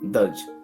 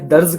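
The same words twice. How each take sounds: First: The word ends with a j sound. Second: The word ends with a z sound. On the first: The speaker calls it right. "दर्ज में जा पे नुक्ता नहीं है" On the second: The speaker calls it wrong. "वो नुक्ता लगा के दर्ज कर देते हैं"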